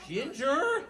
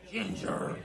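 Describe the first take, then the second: First: Loud, high, rising call; sharper scolding grandma. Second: Voiceless, rough reproach to the dog; scolding grandma. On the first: Grandma looks at the dog again, scolding high and loud. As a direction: call the dog's name with a steep rise. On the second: Grandma looks down at the dog, scolding without full voice. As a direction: scold the dog under a harsh breath. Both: Acted.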